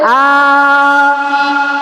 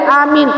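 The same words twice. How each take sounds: First: Only the first vowel is long. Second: Both vowels are short. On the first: It means asking God for protection. "A-nya yang panjang, I-nya yang pendek" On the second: It means safety. "A-nya pendek, min-nya pendek, I-nya pendek"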